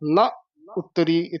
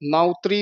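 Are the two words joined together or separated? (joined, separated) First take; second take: separated; joined. First: The two words are said separately with a break. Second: The two words are run together without a break. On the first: The speaker calls it right. "ਵੱਖਰਾ ਬੋਲਣਾ ... ਇੱਥੇ ਵਿਸਰਾਮ" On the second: The speaker calls it wrong. "ਕਈ ਵਾਰ ਅਸੀਂ ਨਾ ਉਤਰੀ ਇਕੱਠਾ ਹੀ ਕਹਿ ਜਾਂਦੇ ਆ, ਨਾ ਉਤਰੀ ਨਹੀਂ ਕਹਿਣਾ"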